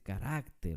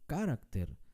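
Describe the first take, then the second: First: The stress is on the middle syllable. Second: The stress is not on the middle syllable. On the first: The speaker calls it right. "se dice carácter, por eso es una palabra grave" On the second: The speaker calls it wrong. "tampoco carácter"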